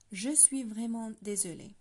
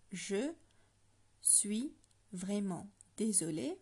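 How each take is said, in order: First: "Je suis vraiment désolé" said clearly for learners; French phrase modeled. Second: "Je suis vraiment désolé" split and drawn out slowly; slower breakdown. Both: Shown as a demonstration. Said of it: "I'm going to break it down for you".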